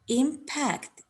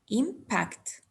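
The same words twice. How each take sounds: First: The stress is on the second syllable. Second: The stress is on the first syllable. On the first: It is used as a verb. "It's a verb" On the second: It is used as a noun. "The first impact is a noun"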